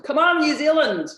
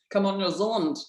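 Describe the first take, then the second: First: Put-on loud, high New Zealand accent cheer; rally the Kiwis in a big New Zealand accent. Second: Put-on New Zealand accent. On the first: Speaker cheering on New Zealand viewers, loud and high in a New Zealand accent. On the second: Speaker repeating her call to New Zealand viewers, lighter, in a New Zealand accent. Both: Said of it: "That's my New Zealand accent".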